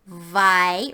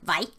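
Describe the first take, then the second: First: The vowel sound is held a little longer. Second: The vowel sound is short and clipped. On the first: The speaker calls it right. "the H makes the sound a little longer" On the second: The speaker calls it wrong. "rather than"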